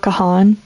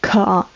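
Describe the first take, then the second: First: The h sound is clearly pronounced. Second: The h sound is barely heard. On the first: The speaker calls it wrong. "like pronounce the H like that" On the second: The speaker calls it right. "it's like barely the H"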